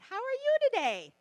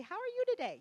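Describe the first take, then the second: First: High, loud sing-song how are you today; loud bright greeting. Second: High sing-song how are you today; bright greeting. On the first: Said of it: "I don't know why I do that". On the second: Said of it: "You say". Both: Shown as a demonstration.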